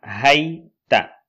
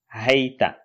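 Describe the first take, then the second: First: Hayta said louder, for the class to echo; model for repeating. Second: Said in the usual way. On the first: Shown as a demonstration. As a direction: project hayta so learners can repeat it. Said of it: "Observez bien et répétez après moi". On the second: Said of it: "Le premier".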